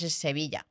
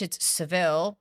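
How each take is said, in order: First: The name ends in a vee-ya sound. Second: The name ends in a short vil sound. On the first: "but in Spanish, it's Sevilla" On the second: "In English, it's Seville"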